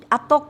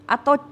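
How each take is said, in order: The two takes are said the same way.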